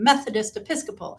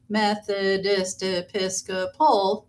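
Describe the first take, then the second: First: Some syllables are stressed, others are weaker. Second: Every syllable gets equal, heavy stress. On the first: The speaker calls it right. "we kind of go with a rhythm" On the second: The speaker calls it wrong. "That's equal and too much stress on each syllable"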